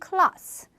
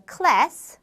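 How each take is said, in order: First: Class with a broad ah vowel; British class, like klahss; 영국식 class; British pronunciation. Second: Class with a flat ae vowel; American class, like kless; 미국식 class; American pronunciation. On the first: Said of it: "영국 영어에서는 class". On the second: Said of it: "미국 영어에서 class". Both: Shown as a demonstration.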